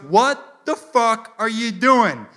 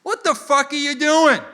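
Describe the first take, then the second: First: Slow, loud, word-by-word cop fury; high, drawn-out angry demand; imitated angry cop. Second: High, loud outraged cop; quick high-pitched mock fury; imitated angry cop. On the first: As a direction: spell out the outrage slowly as a cop. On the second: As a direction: storm up yelling as a cop. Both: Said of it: "he storms up to my car".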